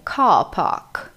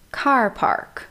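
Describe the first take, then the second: First: It is said in a British accent. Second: It is said in an American accent.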